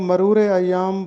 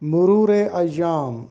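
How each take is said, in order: First: The first word starts with 'ma'. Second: The first word starts with 'mu'. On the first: The speaker calls it wrong. "बहुत से लोग इसको मरूर अय्याम बोलते हैं" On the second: The speaker calls it right. "दुरुस्त तलफ़ुज़ है मुरूर अय्याम"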